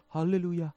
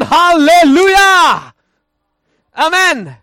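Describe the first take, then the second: First: Tiny, low, very soft hallelujah; timid hallelujah. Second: Loud, high, drawn-out hallelujah; shouted hallelujah. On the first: Preacher showing a hallelujah that contradicts the word's meaning, meekly hushed. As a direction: say it feebly, barely audible. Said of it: "ristiriidassa sen sanan merkityksen kanssa". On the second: Preacher showing how the word should really sound, shouting it. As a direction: belt it out slowly at full voice. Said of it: "Se on, se on ristiriidassa". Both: Shown as a demonstration.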